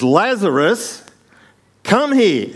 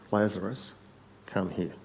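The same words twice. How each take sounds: First: High, drawn-out commanding shout; very loud voice. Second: Quietly said. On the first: Jesus calling dead Lazarus out of the tomb, very loud shout. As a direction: shout it out, pitched way up. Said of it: "in a very loud voice". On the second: Jesus telling Lazarus to come out, quietly said. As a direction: say it softly, dropping at the end. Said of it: "Jesus said". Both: Acted.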